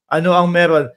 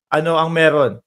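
No difference in how they are said.

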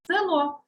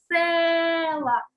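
First: Said in the usual way. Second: Села with a long, loud, high «е»; stressed first syllable. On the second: Shown as a demonstration. Teacher gives pupils the check word, села with drawn-out «е». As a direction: hold the «е» of села. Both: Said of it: "ставимо під наголосом".

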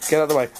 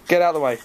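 The two takes are said the same way.

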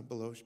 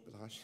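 First: "Baloche" with a long O in the second syllable; alternative name pronunciation. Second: "Baloche" with an open AH in the second syllable; alternative name pronunciation. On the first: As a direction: say "Baloche" as buh-LOHSH. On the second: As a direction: say "Baloche" as buh-LAHSH. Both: Retold or imitated. Tries two pronunciations of the surname.

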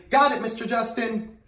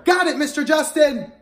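First: Said in the usual way. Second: Loud cheerful call-back; louder. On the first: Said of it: "Can you say". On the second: Shown as a demonstration.

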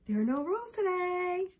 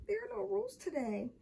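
First: Put-on high child's teasing chant; sing-song taunt. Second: High, small, forlorn voice; sad. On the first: David reminds Michael there are no rules, sing-song taunt. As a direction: taunt him, holding the last word. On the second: Michael thinks it as his crackers are taken, sad. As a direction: think it aloud mournfully. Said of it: "he thought sadly". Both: A narrator's reading.

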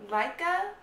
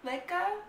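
First: Laika said as LIE-kuh, rising like a question; first guess at the name, Laika as LIE-kuh; unsure name. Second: Laika said as LAY-kuh, softer and rising; second guess at the name, Laika as LAY-kuh; unsure name. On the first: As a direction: try Laika with the long I of lie. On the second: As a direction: try Laika with the vowel of lay. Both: Shown as a demonstration. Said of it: "I could be saying that wrong".

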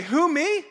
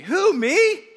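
First: Said in the usual way. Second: Disbelieving, pitch shooting up; can't believe it's you he means; mock disbelief, question leaping high; incredulous. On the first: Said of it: "Everybody say". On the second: Shown as a demonstration. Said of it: "a little more incredulously".

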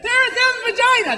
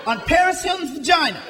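First: Paris Hilton's vagina said higher and louder, relishing each word; louder, higher replay just for the fun of saying it; savoring the phrase. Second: Said in the usual way. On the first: Shown as a demonstration. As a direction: roll "vagina" out with glee. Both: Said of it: "Just sounds fun to say that".

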